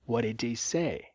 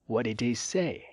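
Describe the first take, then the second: The two takes are said the same way.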